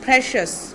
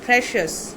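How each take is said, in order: Both takes have the same delivery.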